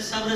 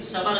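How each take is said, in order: First: صبر as one syllable, sabr; correct pronunciation. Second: صبر in two syllables, sabar; wrong pronunciation. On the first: Preacher showing children the right word, correct pronunciation. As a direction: join b and r at the end of صبر. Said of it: "صحیح". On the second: Preacher showing a common slip, wrong pronunciation. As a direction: add a vowel before the r in صبر: sa-bar. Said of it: "غلط". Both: Shown as a demonstration.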